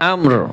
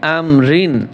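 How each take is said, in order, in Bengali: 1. শব্দটি শেষ হয় শুধু একটি 'r' ধ্বনিতে। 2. শব্দের শেষে একটি যুক্ত 'in' ধ্বনি আছে। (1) "যখন অক্ফ করব জের উচ্চারণ হবে না" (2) "র দুই জের রিন"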